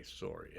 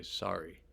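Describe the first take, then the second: First: "sorry" with a rounded or, like SORE-ee; Canadian-style vowel in "sorry". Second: "sorry" with an open ah, like SAH-ree; American-style vowel in "sorry". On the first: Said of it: "But in Canada, I think they say". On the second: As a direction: say "sorry" the United States way. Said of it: "in the United States people say". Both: Shown as a demonstration.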